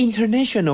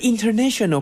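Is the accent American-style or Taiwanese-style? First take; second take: American-style; American-style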